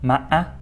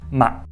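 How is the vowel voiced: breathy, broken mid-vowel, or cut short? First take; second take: broken mid-vowel; cut short. First: The vowel is broken by a catch midway. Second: The vowel is cut short by a catch. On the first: "In the middle of a tone, it would sound somewhat like this" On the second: "If articulated at the end of a tone, it will cut this tone short"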